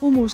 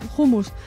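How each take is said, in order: First: The word starts with a silent h. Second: The word starts with a breathy h sound. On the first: The speaker calls it wrong. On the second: The speaker calls it right.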